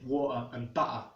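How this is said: The middle T is a glottal stop. "an M L E speaker might say"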